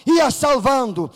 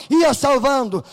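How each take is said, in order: Both takes have the same delivery.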